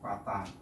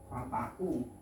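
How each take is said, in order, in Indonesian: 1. Kata itu berakhir jelas pada 'a' panjang. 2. Kata itu berakhir dengan bunyi 'u' yang ditambahkan. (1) "ini tetap al-fata" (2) "Sulit, ya. Fatau, hmm, fatau sulit"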